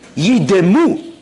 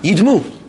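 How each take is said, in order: First: A short vowel is sounded, giving three syllables. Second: The first vowel is dropped, giving two syllables. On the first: They should become still and lifeless. The speaker calls it right. "it's a Shva Na" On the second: They will resemble something. The speaker calls it wrong. "That's Shva Nach"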